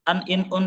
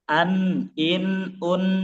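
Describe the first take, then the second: First: The n sounds are cut short quickly. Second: The n sounds are held and flow longer. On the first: The speaker calls it wrong. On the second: The speaker calls it right. "tapi an in un gitu. An in un ngalir kan?"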